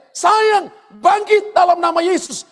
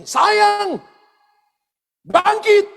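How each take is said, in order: First: High ringing shout of command. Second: High, loud call to raise her; calling out to the dead. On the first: Healer shouting at his dead wife's body to rise. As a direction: cry out to wake the dead. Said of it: "Dan dia teriak". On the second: Healer calling his dead wife to rise, loud and high. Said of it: "lalu dia katakan begini". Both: Retold or imitated.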